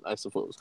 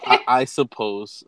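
First: Muttered aside. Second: Said in the usual way. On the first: Real, not acted. Host mumbling a resigned aside to co-host, quietly. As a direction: drop to a low mumble under the breath.

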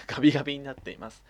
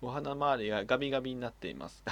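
First: ガビガビ repeated through a laugh, a bit louder. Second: Said in the usual way. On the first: Shown as a demonstration. Amused by the letter, re-reading it laughing. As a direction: say ガビガビになっています again, cracking up.

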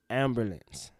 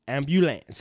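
First: Ambulance said slowly as AM-bu-lance with a laugh; careful pronunciation. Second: Ambulance said as AM-byu-lance; other pronunciation. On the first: Trying out how Ambulance is said, laughing. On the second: Showing Shay a second way of saying ambulance. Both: Shown as a demonstration. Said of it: "you said two different things".

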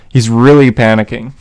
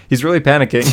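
First: Louder burst, leaning into the mic; too close to the mic. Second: Said in the usual way. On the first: Real, not acted. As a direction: lean in and get suddenly loud. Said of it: "oh, I just leaned into my mic there". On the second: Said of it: "Sorry, headphone users".

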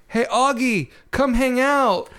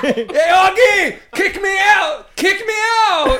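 First: Mild imitated call, pitch lifting; Isaiah. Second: Very high, loud mock yelling; hammed-up high shout, words stretched; Isaiah. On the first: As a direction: call out casually to a friend, no real shout. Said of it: "I was yelling at you". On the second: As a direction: holler it like a friend calling out in a dream. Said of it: "you were yelling at me".

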